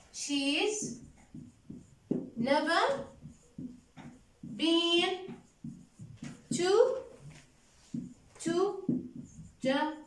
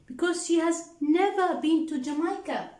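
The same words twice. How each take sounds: First: One word at a time, long pauses between; slow dictation. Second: Said in the usual way. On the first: Shown as a demonstration. Teacher dictating to the class, word by word with pauses. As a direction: spell it out slowly so the class can write. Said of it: "teacher dictates word by word". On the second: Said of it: "teacher dictates the answer".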